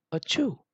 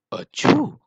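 First: High, short "achoo"; a small, high pretend sneeze; little mock sneeze. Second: Very high, loud "achoo"; big mock sneeze. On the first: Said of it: "He blew out his little cheeks". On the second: Wild Boar after a deep breath, huge high sneeze. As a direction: explode into a pretend sneeze. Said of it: "taking a deep breath". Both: A narrator's reading.

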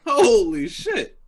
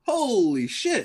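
First: Slow, high and louder amazement; louder stunned. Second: Slow, high-pitched amazement; stunned. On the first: Friend reacting again to the huge purchase, louder and slower. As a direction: let it burst out slowly, even more floored. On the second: Friend hearing about the toilet paper haul, slow stunned. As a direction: stretch it out in awe. Reacting to thirty-six rolls. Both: Real, not acted.

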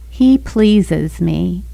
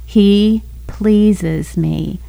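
First: Sweet little voice. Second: Very slow and gentle, words stretched; sweet voice again. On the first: Wife recalling God's voice while she circles the airport, slow and gentle. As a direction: voice a kind inner voice that stops her short. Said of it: "this little sweet voice that said". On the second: The inner voice repeats itself to the wife, slow and tender. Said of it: "this voice came again". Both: Retold or imitated.

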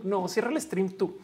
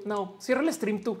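First: Slower, "no, cierra el stream tú" drawn out softly; soft giggly late night call. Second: Playful "no, cierra el stream tú" like lovers; giggly late night call. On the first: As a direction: coo it, lingering on the goodbye. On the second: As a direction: tease "you hang up first". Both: Pretend. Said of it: "no quiero colgar".

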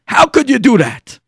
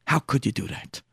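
First: Loud, high accusation; angry reproach. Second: Soft, wounded accusation; hushed reproach. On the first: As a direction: burst out at Dad in outrage. Son confronts father, raises his voice. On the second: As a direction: drop the voice in hurt disbelief. Son confronts father, drops his voice. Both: Acted.

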